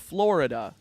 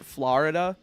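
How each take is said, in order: First: The first vowel sounds like an 'oh'. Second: The first vowel sounds like an 'ah'. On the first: The speaker calls it right. "it's a fucking O. It's not an A" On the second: The speaker calls it wrong. "I also can't stand people that pronounce it Florida"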